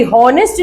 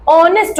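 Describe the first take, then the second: First: हॉनेस्ट with an audible H at the start; H sounded wrongly. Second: ऑनेस्ट starting straight on the O vowel; silent H. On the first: Teacher showing students the mistaken way, हॉनेस्ट with H sounded. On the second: Teacher showing the correct pronunciation, ऑनेस्ट with silent H. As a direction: drop the H in ऑनेस्ट. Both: Shown as a demonstration. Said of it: "इसकी pronunciation ना एच से नहीं होती".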